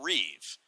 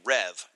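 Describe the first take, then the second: First: The vowel is a long 'ee', as in 'reeve'. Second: The vowel is a short 'e', as in 'rev'. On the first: This is the pronunciation Americans tend to use. The speaker calls it wrong. "not Reeve" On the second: This follows the original French pronunciation. The speaker calls it right. "It's meant to be Rev"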